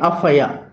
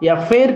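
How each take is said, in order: First: The final r is left silent. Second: The final r is clearly pronounced. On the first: The speaker calls it right. "ఆర్ని silent చేయాలి" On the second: The speaker calls it wrong. "ఎఫ్ఐఆర్ కాదండి"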